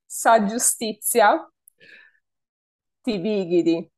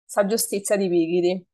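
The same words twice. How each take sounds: First: The phrase is said at a slower pace. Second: The phrase is said at a fast pace.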